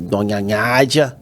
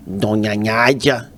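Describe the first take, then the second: First: Slow "Donha Nádia" with NH sound; lightly put-on janitor voice; [name]'s voice. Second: Slow, nasal-ish "Donha Nádia" with the N as NH; [name]'s voice. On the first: Pranking his mother in the dark kitchen as the janitor. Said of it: "Aí eu fiz assim". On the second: Retold or imitated. Imitating the janitor greeting the mother, slow. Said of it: "a voz dele é uma voz mais ou menos assim".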